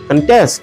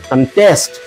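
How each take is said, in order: First: The stress is on the first syllable. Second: The stress is on the second syllable. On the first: It is used as a noun. "নাউনে পরের শব্দতে জোরটা কম পড়ে" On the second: It is used as a verb. "Verb গুলাতে পরের শব্দগুলোর দিকে আমাদের একটু জোরটা বেশি দিতে হয়"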